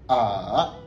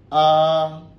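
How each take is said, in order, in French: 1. Elle se dit avec le troisième ton. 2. Elle se dit avec le premier ton. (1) "Et le troisième, ça va donner A" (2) "Premier ton"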